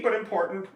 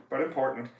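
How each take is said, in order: First: "but" said higher, leaning on it; stress on but. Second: Said in the usual way. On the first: Shown as a demonstration. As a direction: lift the word "but" above the rest.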